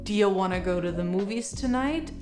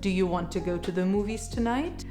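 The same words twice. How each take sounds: First: 'Do you' is reduced to 'dia'. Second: 'Do you' is said fully as two words. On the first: "Dia is short for do you" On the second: "Instead of"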